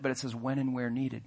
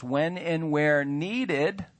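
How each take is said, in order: First: Said in the usual way. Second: "needed" drawn out very slow with a rise; stress on needed. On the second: Shown as a demonstration. Pastor reading the covenant line, stretching "needed" slowly. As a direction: lean long and slow on "needed". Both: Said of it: "emphasize that word needed".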